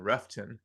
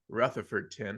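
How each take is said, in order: First: The name is shortened, with syllables dropped. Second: The name is said with every syllable. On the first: "as the locals pronounce it" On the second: "if you're saying all the syllables"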